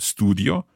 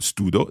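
First: The word has an 'ee' sound before the 'o'. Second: The word has no 'ee' sound before the 'o'. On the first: The speaker calls it right. "the I sound stays in there" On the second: The speaker calls it wrong. "it's not studo"

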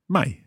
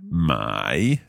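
First: The syllable is said with the fourth tone. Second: The syllable is said without the fourth tone. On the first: It means to sell. "fourth tone, to sell" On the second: It means to buy. "to buy"

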